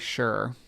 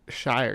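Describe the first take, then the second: First: The syllable is reduced, rhyming with pure. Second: The syllable is said fully, rhyming with fire. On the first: The speaker calls it right. "You think you just say sure when it's a big when it's run together" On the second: The speaker calls it wrong. "I don't think you say uh"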